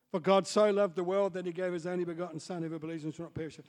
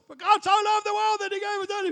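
First: Said in the usual way. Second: High, loud shouted verse; yelled out. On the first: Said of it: "I heard the voice through my front door". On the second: Retold or imitated. Wigglesworth shouting through a stranger's mail slot, high loud yell. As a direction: belt the verse into the letterbox. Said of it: "yells out the top of his voice".

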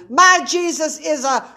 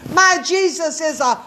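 No difference in how they are said.

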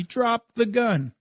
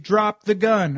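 First: Drawn-out shouted order, higher pitch; slow retold yell. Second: A loud retold yell, a bit higher. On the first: Cop yelling at me across the road, slow mock yell. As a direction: spell each word out like a command. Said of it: "he's yelling at me". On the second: Cop yelling at me to drop the gun, loud retold shout. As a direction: bark the order at a man across a clearing. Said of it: "He's saying".

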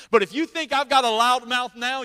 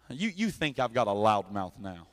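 First: Higher, full preaching voice; building back up. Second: Softer, hushed and drawn in; real quiet. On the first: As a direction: lift it back toward the big voice. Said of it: "you don't wanna hear me on that day". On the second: Preacher dropping to a hush for the congregation. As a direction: pull it way down to a hush. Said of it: "I'll get real quiet". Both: Shown as a demonstration.

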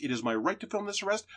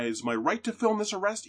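First: Arrest stressed, higher and softer repeat; insistent, stress on arrest. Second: Film stressed, much higher insistent voice. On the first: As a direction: land it on arrest. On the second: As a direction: lean on film. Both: Retold or imitated.

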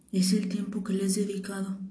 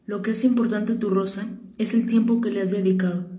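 First: Much softer, repeating "Es el tiempo que le has dedicado" to memorise it; quiet repeating. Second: Said in the usual way. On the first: Acted. The prince repeats the fox's words to remember, hushed. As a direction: say it back under your breath to remember it. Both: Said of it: "repitió el principito con el fin de recordarlo".

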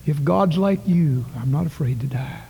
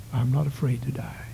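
First: Said in the usual way. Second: Whispered repeat. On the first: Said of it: "that little boy said". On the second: Acted. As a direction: let it sink in, barely voiced. Boy's words repeated, softer.

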